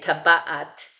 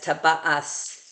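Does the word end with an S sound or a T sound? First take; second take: T sound; S sound. First: The word ends with a T sound. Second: The word ends with an S sound. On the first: This is the typical Israeli pronunciation. "which I would say taba'at"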